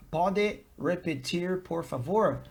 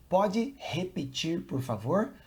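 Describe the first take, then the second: First: "repetir" with an English R at the start; "repetir" opening on an American R; English-style R. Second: "repetir" with the first R said like an English H; "repetir" pronounced roughly "hepitir"; Portuguese H-like R. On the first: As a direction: say "repetir" as an English speaker would, R not H. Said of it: "If you say". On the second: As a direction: start "repetir" on an H sound, as in hot. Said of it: "this sound here is more like H". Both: Shown as a demonstration.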